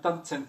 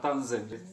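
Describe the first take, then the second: First: The word starts with a sharp ts sound. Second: The word starts with a soft z sound. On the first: The speaker calls it right. "c'est bien tanzen" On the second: The speaker calls it wrong. "pas tanzen"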